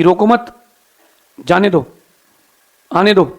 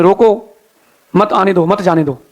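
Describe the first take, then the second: First: "रोको मत" said as one unit, then a pause; pause after मत. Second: "रोको" set apart, then a pause before "मत आने दो"; pause after रोको. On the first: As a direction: join मत to रोको, break before "जाने दो". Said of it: "फरमान भेजा". ("रोको मत" एक साथ, फिर विराम) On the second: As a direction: break after रोको, join मत to what follows. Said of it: "उसने लिख दिया बोर्ड में". ("रोको" के बाद विराम, फिर "मत आने दो") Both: Retold or imitated.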